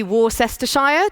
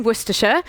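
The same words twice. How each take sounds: First: Worcestershire read letter by letter as WOR-ses-ter-shire; spelled-out mispronunciation. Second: Worcestershire as WUSS-tuh-sher, letters swallowed; real pronunciation. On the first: Speaker giving the naive as-written pronunciation for voice programmers. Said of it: "someone thinks that's how it's said". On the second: Speaker telling voice programmers the real British pronunciation. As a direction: say Worcestershire the true British way, short and clipped into three syllables. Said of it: "you have to put in the real pronunciation". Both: Shown as a demonstration.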